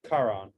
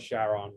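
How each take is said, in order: First: The name does not begin with a 'sh' sound. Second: The name begins with a 'sh' sound. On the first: It follows the original name from myth. "but it's Charon" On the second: It follows the name of the founder's wife. "we call it Charon because of that"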